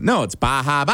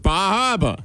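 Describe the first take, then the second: First: "Bar Harbor" as "bah hah-bah"; locals' correction. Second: "Bar Harbor" as "bah hahr-buh", higher pitch; Boston-accent attempt. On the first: Retold or imitated. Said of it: "And they said". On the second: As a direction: drop the final R in "Harbor", tourist's Boston accent. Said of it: "I said".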